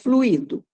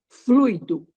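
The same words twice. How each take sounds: First: The stress falls on the i vowel. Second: The stress falls on the u vowel. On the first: The speaker calls it wrong. "e não fluido com acento no i" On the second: The speaker calls it right. "A tônica está no u"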